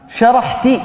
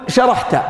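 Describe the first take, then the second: First: The word ends with an i vowel. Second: The word ends with an a vowel. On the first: The female listener did it. "هكذا بالكسر" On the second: The male listener did it. "مفتوحة، فتقول شرحت"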